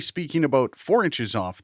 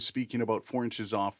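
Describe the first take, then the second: First: The voice is picked up from the front. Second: The voice is picked up from the side. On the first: "speaking about four inches off the front of the microphone" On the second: "four inches off from the side of the microphone"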